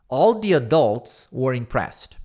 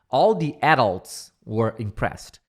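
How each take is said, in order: First: The stress in adults is on the second syllable. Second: The stress in adults is on the first syllable. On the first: "com a primeira pronúncia do adult" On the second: "Com a segunda pronúncia do adult"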